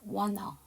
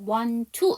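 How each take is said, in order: First: Both t sounds drop, and n runs into the vowel. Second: Only the first t drops; the t of 'to' is heard. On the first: "t 발음 안 하고 n 발음이 넘어가니까 wanna" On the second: "앞에 t를 안 해서 want to 이렇게 발음하는 게 있고요"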